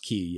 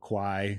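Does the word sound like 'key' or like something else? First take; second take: key; something else. First: The word sounds like 'key'. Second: The word does not sound like 'key'. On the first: The speaker calls it right. "I think it's pronounced Key" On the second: The speaker calls it wrong. "I was pronouncing that wrong"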